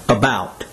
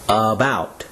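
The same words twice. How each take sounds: First: It is said at normal speed. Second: It is said slowly, syllable by syllable.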